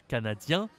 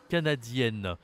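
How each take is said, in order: First: CANADIEN with nasal "ien", silent n; rising "canadien", no n heard; masculine pronunciation. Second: CANADIENNE ending "-yenn", n sounded; falling "canadienne" with clear final n; feminine pronunciation. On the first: Teacher recapping the rule, masculine pronunciation. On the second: Teacher recapping the rule, feminine pronunciation. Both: Shown as a demonstration. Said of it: "aussi sur la prononciation".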